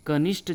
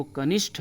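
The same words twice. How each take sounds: First: कनिष्ठ ending in unaspirated T; dry retroflex T closing कनिष्ठ; incorrect pronunciation. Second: कनिष्ठ ending in aspirated TH; aspirated retroflex closing कनिष्ठ; correct pronunciation. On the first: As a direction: say कनिष्ठ as "kanisht", no puff on the T. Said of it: "जो बोल दिया जाता है". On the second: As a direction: say कनिष्ठ as "kanishth", puff after the T. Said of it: "वो कनिष्ठ होता है". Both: Shown as a demonstration.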